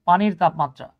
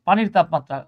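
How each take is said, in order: No difference in how they are said.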